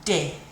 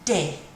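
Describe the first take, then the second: First: The letter is said with French pronunciation. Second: The letter is said with French pronunciation.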